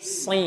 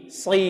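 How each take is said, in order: First: Si with a heavy emphatic s, tongue pressed to the palate; correct thick version. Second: Si with a light, plain s and no tongue contact; thin wrong version. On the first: Teacher shows students the correct emphatic si. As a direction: say si thick and stuck to the roof. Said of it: "tapi si". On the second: Teacher shows students the wrong thin si. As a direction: say si thin, the way it should not sound. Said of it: "Bukan si". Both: Shown as a demonstration.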